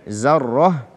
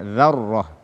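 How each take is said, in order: First: The word begins with a z sound. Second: The word begins with a dh sound. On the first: The speaker calls it wrong. "dengan zai" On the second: The speaker calls it right. "padahal dia adalah dzarrah"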